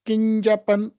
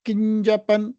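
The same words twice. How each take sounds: Both takes have the same delivery.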